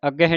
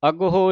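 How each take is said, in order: First: The word is said short as 'agge'. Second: The word is said with an 'h' as 'agaho'. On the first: The speaker calls it wrong. "ਅੱਗੇ ਨਹੀਂ ਕਹਿਣਾ" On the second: The speaker calls it right. "ਇੱਕ ਤਾਂ ਹਾਹਨ ਔਂਕੜ ਲੱਗਾ ਹੈ"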